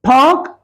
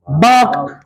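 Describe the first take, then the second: First: "पार्क" high and rising, with clear P, silent R; P, not B. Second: "बार्क", park with B for P, falling low; mispronounced park. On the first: Teacher contrasts park and bark, "पार्क" with clear P. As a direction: say "पार्क" with a P, pitched up. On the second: Teacher shows non-native mistake, "बार्क" with B for P. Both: Shown as a demonstration. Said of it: "पार्क को पढ़ते हैं वो बार्क".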